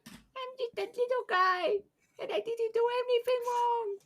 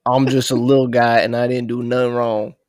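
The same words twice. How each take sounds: First: Tiny, very high squeaky voice; little guy voice. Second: Loud little guy at normal pitch. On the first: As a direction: squeak it out like a teeny innocent creature. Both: Acted. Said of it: "say it in your best little guy voice".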